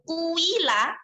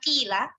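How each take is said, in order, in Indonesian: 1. Vokal pertama dibulatkan mendekati u. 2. Vokal pertama adalah i biasa. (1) "ketika bacaan ismam itu menjadi kuila" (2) "Bukan kila"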